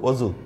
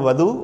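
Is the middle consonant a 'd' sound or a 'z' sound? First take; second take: z; d. First: The middle consonant is a z sound. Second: The middle consonant is a d-like sound. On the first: "ওখানে জোয়াদ" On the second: "আরবির দোয়াদ"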